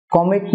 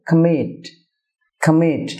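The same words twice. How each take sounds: First: কমিট with a full first vowel, "KO-mit"; wrong pronunciation. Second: কমিট as "kuh-MIT", weak first vowel; correct pronunciation. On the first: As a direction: round "ko" in কমিট. (কমিট-এর ভুল উচ্চারণ, স্পষ্ট "ক") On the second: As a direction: stress the end of কমিট, falling. (কমিট-এর সঠিক উচ্চারণ, "কা-মিট") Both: Shown as a demonstration. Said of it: "না হয়ে হবে".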